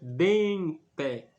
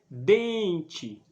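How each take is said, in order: First: The final vowel sounds like 'eh'. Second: The final vowel sounds like 'ee'. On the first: "Se fosse no, no latim, a gente pronunciaria dente" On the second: "a gente pronuncia como se tivesse um I no final"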